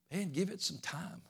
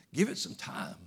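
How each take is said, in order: First: Soft aside. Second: Breathy whisper riding on a laugh; whispered tease. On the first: To discouraged believers, a soft hushed aside. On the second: Teasing doubters again, a giggling whisper. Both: Shown as a demonstration.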